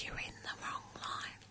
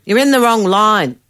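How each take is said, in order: First: Slow, hushed mimicked whisper. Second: Raised voice, higher pitch; loud retold repeat. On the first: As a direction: repeat it slowly under your breath. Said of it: "she whispers in my ear". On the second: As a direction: say it out loud for all to hear. Repeats whispered line out loud.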